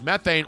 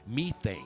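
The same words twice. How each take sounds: First: It is said in an American accent. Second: It is said in an English accent.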